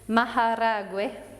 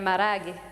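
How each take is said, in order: First: A w sound comes before the final vowel. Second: No w sound comes before the final vowel. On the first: This is the original full form. "the original way of saying it is maharagwe. There's a W" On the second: This is the casual form heard in markets. "they might take that W out"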